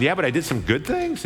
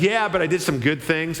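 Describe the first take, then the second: First: "Yeah, but I did some good things" with the voice rising on "things"; unsure, asking rise at the end of "things"; hopeful questioning lift on "things". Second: Said in the usual way. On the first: Retold or imitated. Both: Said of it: "I might have said it as, like, a question".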